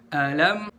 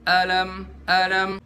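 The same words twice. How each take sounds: First: "Alam" stepping up slightly on "lam"; raised lam. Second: "alam" on one level, no lift on "lam"; undifferentiated intonation. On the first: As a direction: give "A" its beat, then lift "lam" a little. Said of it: "terus naikin dikit di lam". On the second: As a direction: say "alam" with both syllables at the same pitch. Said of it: "jangan kita baca". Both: Shown as a demonstration.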